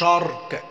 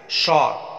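First: The r is pressed hard with a rolling tongue. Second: The r is touched lightly and quickly. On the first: The speaker calls it wrong. "ما تقولش شارك حرف الار كده لسانك يعمل لقلقه كتير كده" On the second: The speaker calls it right. "لسانك خفيفه كده يمشي على الحرف الار لقطه سريعه"

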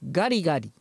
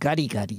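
First: The voice is hard and thrown upward. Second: The voice is smooth and deep. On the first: The speaker calls it wrong. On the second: The speaker calls it right.

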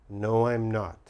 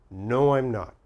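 No difference in how they are said.

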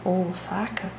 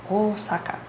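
The two takes are said the same way.

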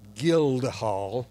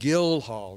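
First: The name is said with a d sound. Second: The name is said without a d sound. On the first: The speaker calls it wrong. "not Guildhall" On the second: The speaker calls it right. "Correct, Guildhall ... there's no D in Guildhall"

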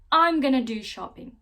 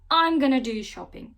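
First: 'Going to' is shortened to 'gonna'. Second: The same.

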